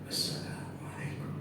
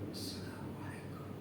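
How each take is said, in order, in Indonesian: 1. Diucapkan dengan lebih keras, terdengar jelas. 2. Diucapkan dengan sangat pelan, hampir tidak terdengar.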